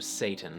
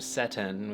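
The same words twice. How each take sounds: First: The first vowel is a long a sound. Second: The first vowel is an e sound. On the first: "which became a" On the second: "which became e"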